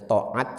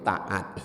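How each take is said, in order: First: The first t is heavy, with a darker vowel. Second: The first t is light, with a plain vowel. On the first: This is the original Arabic pronunciation. "pengucapannya diperingan dari to menjadi ta" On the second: This is the Indonesian pronunciation. "menjadi ta"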